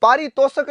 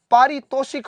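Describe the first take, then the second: First: पारितोषक with no i before क; wrong form said aloud. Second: पारितोषिक with a clear षि; correct form stressed. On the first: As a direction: sound out the incorrect पारितोषक. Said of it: "पारितोषक नहीं होता है". (गलत रूप पारितोषक, बिना इ के) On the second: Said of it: "पारितोषिक होता है". (सही रूप पारितोषिक, षि पर ज़ोर) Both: Shown as a demonstration.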